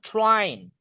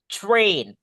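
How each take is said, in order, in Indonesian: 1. Vokalnya terdengar seperti a biasa. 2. Vokalnya terdengar seperti e. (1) "not train" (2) "A-nya dibaca E"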